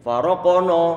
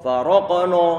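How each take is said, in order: The two takes are said the same way.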